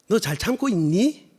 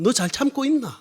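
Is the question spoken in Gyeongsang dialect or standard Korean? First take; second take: standard; Gyeongsang dialect. First: It is spoken in standard Seoul Korean. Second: It is spoken in Gyeongsang dialect. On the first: "제가 태생은 서울인데" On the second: "부산 사투리, 경상도 사투리로 하면"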